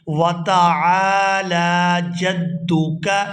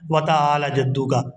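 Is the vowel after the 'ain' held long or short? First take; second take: long; short. First: The vowel after the 'ain' is drawn out. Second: The vowel after the 'ain' is short. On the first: The speaker calls it right. "आइन को खींचकर अदा करेंगे" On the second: The speaker calls it wrong. "यहाँ गलती की जाती है ... आइन को खींचा नहीं जाता"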